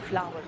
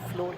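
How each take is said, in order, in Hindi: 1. स्वर की ध्वनि "power" जैसी है। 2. स्वर की ध्वनि "door" जैसी है। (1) "फ्लावर होता है" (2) "फ्लोर नहीं होता"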